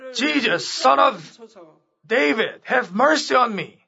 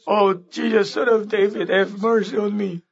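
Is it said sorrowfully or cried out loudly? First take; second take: cried out; sorrowfully. First: It is cried out in a loud voice. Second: It is said in a soft, sorrowful tone.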